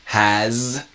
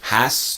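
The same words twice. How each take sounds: First: The final sound of has is a buzzing z. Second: The final sound of has is a hissing s. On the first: It shows possession. "the S sounds like a Z" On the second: It shows obligation. "the has to will combine to has to"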